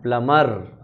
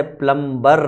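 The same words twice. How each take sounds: First: प्लमर said lower with a silent b; teacher's answer प्लमर, b dropped, falling; correct pronunciation. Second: प्लम्बर said with a clear b, the usual way; the everyday प्लम्बर with b sounded; common pronunciation. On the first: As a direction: reveal the right form प्लमर, no b. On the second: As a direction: say प्लम्बर as people usually do, b included. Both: Shown as a demonstration. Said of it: "कैसे pronounce करना चाहिए".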